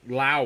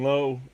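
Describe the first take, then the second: First: The name rhymes with 'now'. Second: The name rhymes with 'low'. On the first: The speaker calls it right. "he pronounces it Lau" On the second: The speaker calls it wrong. "excuse me"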